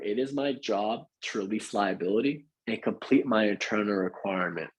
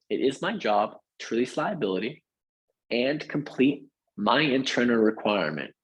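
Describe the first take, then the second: First: It is spoken at a quicker pace. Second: It is spoken at a slower pace.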